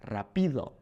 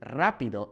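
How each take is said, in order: First: Rapido stressed on PI, as raPÍdo; stress on middle syllable. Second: Rápido with stress on RA; stress on first syllable. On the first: Teacher shows the wrong stress, rapido hit on PI. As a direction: shift the weight to PI in rapido. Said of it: "and not". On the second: Teacher contrasts the accented word, rápido stressed on RA. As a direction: land firmly on RA in rápido. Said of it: "this accent letting us know". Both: Shown as a demonstration.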